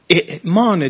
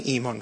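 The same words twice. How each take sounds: First: اعمان with a hard glottal catch at the start; اعمان pronounced with the full hamza. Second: ایمان with a smooth vowel start and no catch; ایمان said easily, hamza softened. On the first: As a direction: stress the throat stop at the start of اعمان. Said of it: "اگر ما بخوایم درست تلفظ کنیم همزه رو". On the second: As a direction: glide straight into ایمان, dropping the throat stop. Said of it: "یه ادغامی کردن". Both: Shown as a demonstration.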